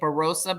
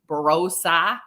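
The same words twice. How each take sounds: First: It is said in a plain American accent. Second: It is said in an Australian accent.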